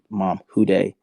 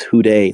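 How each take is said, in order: First: Said in the usual way. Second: Louder, emphatic imitation of mom; raised-voice retelling of a chant; retold louder repeat. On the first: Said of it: "with tears in my face and I just say". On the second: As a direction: call it out more forcefully, as mom did. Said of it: "louder and louder and louder".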